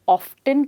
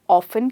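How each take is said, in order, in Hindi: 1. t एक हल्के अंत के साथ बोला जाता है। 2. t साइलेंट है, ofen जैसे। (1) "या ऑफ्टन कह सकते हैं" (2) "या तो ऑफन कह सकते हैं"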